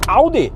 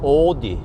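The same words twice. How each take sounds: First: It is said in its local-language pronunciation. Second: It is said the way English presenters say it. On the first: The speaker calls it right. "It's Audi" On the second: The speaker calls it wrong. "they said uh"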